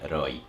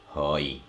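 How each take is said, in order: First: The word starts with an R sound. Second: The word starts with an H sound. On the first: This is the written, formal form. "the word one hundred we say roi" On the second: This is the everyday spoken form. "in spoken, you can change to say like this"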